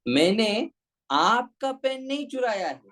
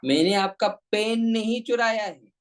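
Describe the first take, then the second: First: The stress is on आपका. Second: The stress is on पेन.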